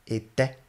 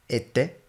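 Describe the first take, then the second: No difference in how they are said.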